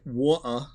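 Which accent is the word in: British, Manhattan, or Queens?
British. It is said in a British accent. "I know they say water"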